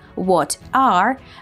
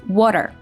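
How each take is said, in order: First: The t is a crisp, separate t sound. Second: The t becomes a soft d-like tap. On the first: "instead of what are" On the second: "we hear water"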